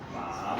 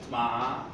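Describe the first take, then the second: First: The pitch dips low and then rises. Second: The pitch rises from middle to high.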